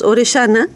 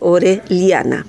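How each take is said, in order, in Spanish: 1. El nombre se dice al estilo uruguayo. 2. El nombre se dice al estilo guatemalteco. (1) "Nosotros en Uruguay decimos Orellana" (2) "ella es de Guatemala, donde se dice Orellana"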